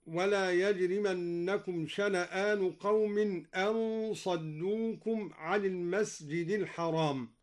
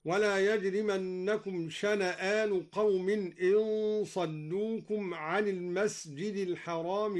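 First: Slow recitation, "أن صدوكم" as an saddukum; hamza with fatha. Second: Slow recitation, "إن صدوكم" as in saddukum; hamza with kasra. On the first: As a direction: say "أن" as an, with an a vowel. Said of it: "قرأ الدوري بكسر الهمزة". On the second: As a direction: say "إن" as in, with an i vowel. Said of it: "قرأ الدوري بكسر الهمزة هكذا". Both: Shown as a demonstration.

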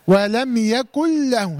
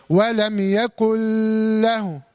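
First: Slow chant, "يكن له" as "yakul-lahu" with no hum; idgham without ghunna. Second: Very slow chant, long hummed hold inside "يكن له"; wrong added ghunna. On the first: Teacher showing how it is done, chanting "يكن له" with no nasal hold. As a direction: merge "يكن" cleanly into a doubled lam. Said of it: "هكذا". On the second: Teacher warning against ghunna, chanting "يكن له" with a long held merge. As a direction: stretch the merge of "يكن" into "له" with a nasal hum. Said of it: "غنة، ما تقوليش". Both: Shown as a demonstration.

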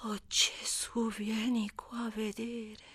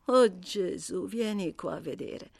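First: Slow whispered gasp at the sight; awed whisper. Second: Said in the usual way. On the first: Acted. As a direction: breathe it out, stunned. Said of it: "esclamò". (sussurro lento e sbalordito)

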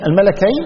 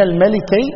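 First: "الملكين" as al-malakayn; A vowel after the lam in "الملكين"; fatha on the lam. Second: "الملكين" as al-malikayn; I vowel after the lam in "الملكين"; kasra on the lam. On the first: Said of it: "الملكين بفتح اللام". ("الملكين" بفتح اللام) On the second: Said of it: "الملكين بكسر اللام". ("الملكين" بكسر اللام) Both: Shown as a demonstration.

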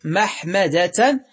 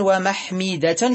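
First: محمدة as mahmada, short a after the h; fatha on mim. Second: ومحمدة as wa-mahmida, short i on second mim; irregular kasra form. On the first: Teacher giving the regular noun, محمدة said mahmada. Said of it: "بالفتح". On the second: Teacher giving the irregular noun, ومحمدة said wa-mahmida. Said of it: "شذوذا". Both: Shown as a demonstration.

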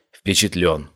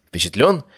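First: Falling, settled Впечатлён; answering statement. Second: Rising questioning tone; asking question. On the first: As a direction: confirm it, voice dropping at the end. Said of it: "«Впечатлён», — кивнул я". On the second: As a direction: ask it, voice lifting at the end. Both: Acted.

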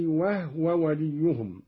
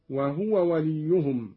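First: وهو said "wahwa", h closing the first syllable; no vowel between h and w in وهو; silent-vowel haa. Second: Said in the usual way. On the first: Shown as a demonstration. Teacher showing Qalun's reading, وهو with vowelless ha. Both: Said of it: "قرأ قالون بإسكان الهاء".

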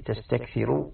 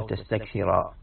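First: تستكثر ending in u, "tastakthiru"; raf', final u. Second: تستكثر ending in a, "tastakthira"; final a. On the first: Teacher explaining the raf' reading, تستكثر said "tastakthiru". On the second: Teacher contrasting case endings, تستكثر said "tastakthira". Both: Shown as a demonstration. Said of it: "من قرأها بالرفع".

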